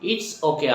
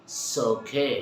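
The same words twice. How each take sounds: First: Said in the usual way. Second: "It's okay" as a soft, drawn-out "so-kay"; reduced native pronunciation. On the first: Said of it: "আমরা না বলে". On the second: Shown as a demonstration. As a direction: leave off the "it" in "It's okay", just "s'okay". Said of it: "আমরা কি বলবো?". ("It's okay" নরম করে "সো-কে")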